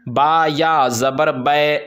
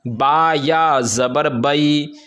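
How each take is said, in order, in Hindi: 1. आख़िरी स्वर मारूफ़ तरीके से नहीं पढ़ा जाता है। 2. आख़िरी स्वर मारूफ़ तरीके से पढ़ा जाता है। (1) "इस तरह नहीं" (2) "मारूफ किस तरह पढ़ना है?"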